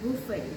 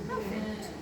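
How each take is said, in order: First: It starts with an oo vowel, with no final t. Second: It starts with an a vowel and ends with t. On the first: The speaker calls it right. "এটার correct pronunciation হচ্ছে বুফে" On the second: The speaker calls it wrong. "এই দুইটাই কিন্তু রং"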